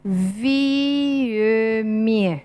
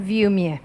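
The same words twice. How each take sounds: First: It is said slowly with every sound included. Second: It is said quickly with the middle sound skipped. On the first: "la manera de pronunciarlo lento sería" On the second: "para hacerlo más simple decimos"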